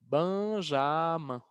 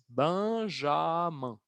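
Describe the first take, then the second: First: The name is pronounced with French sounds. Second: The same.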